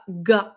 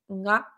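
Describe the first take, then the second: First: The g is a hard, guttural stop. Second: The g is softened with a nasal n sound. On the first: "c'est vraiment G A, ga, donc un peu guttural" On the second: "on pourrait le retranscrire en romadji par G N A"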